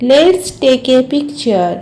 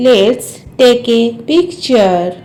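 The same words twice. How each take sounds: First: Said in the usual way. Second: Measured, word-by-word language model. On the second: Shown as a demonstration. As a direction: draw the sentence out for learners. English model repeated slowly for learners.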